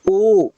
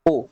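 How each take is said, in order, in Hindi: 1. इस स्वर को ज़्यादा देर तक खींचा जाता है। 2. इस स्वर को बस थोड़ी देर के लिए बोला जाता है। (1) "इसमें ज्यादा समय लग रहा है" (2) "कम समय लग रहा है ना।"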